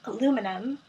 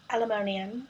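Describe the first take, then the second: First: It is said in an American accent. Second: It is said in a British accent.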